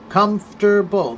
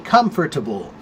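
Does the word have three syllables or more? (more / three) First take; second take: three; more. First: The word is said with three syllables. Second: The word is said with more than three syllables. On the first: "which is comfortable, three syllables" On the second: "or you can say comfortable"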